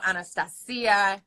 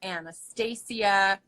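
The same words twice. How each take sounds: First: Anastasia with the middle as "stah"; one way people say it. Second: Anastasia with the middle as "stay"; another way people say it. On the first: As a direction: Anastasia said slowly, stahs in the middle. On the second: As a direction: Anastasia said slowly, stay-zee-a. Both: Shown as a demonstration. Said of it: "So they go".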